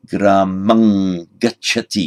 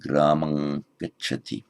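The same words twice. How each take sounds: First: Slow, careful Gramang gacchati with the stress on gramang; Pali pronunciation. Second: Said in the usual way. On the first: Shown as a demonstration. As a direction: spell out Gramang gacchati slowly for the class. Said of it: "you put the village in the accusative". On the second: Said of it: "he goes to the village".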